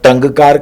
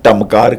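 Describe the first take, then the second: First: The nasal before k sounds like ng. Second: The nasal before k sounds like m. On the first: "ना तो टंगकार" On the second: "ना मैंने टमकार कहा"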